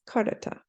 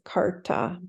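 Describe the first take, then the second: First: The middle vowel is kept, giving three syllables. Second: The middle vowel is dropped, giving two syllables. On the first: The speaker calls it right. "but it's karata" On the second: The speaker calls it wrong. "you'll hear it in recordings, you know, just said as karta"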